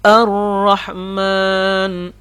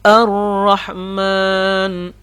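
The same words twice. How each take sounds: First: The r sound is heavy and thick. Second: The r sound is heavy and thick.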